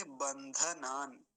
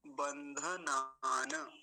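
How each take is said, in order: First: बंधनान slow, stopping right on the n; halted final n. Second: बंधनान drawn out ending in an open na; full final na. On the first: Teacher showing the halant, halted final n. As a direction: close बंधनान on n, no vowel after. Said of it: "लेकिन वहां हलंत है". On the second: Teacher showing it without halant, full final na. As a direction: end बंधनान slowly on a voiced -na. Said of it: "पूरा होता तो क्या बोलते?". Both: Shown as a demonstration.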